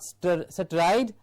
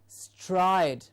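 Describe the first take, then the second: First: The vowel is not a full 'eye' sound. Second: The vowel is a full 'eye' sound. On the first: The speaker calls it wrong. "not stride" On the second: The speaker calls it right. "the vowel sound I"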